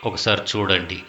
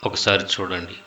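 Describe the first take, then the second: Both takes have the same delivery.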